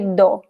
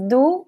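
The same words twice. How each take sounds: First: The word is said with a full, clear vowel. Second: The word is said with a weak, quick vowel. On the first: "some people would say do" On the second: "it is do, but it is very uh, weak and fast"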